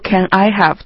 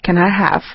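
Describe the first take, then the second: First: "Can" and "I" are said as separate words. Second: "Can" and "I" run together into one unit. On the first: The speaker calls it wrong. "在生活当中大家一般的话不会去说Can I have?" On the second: The speaker calls it right. "大多数人都会去说Can I have?"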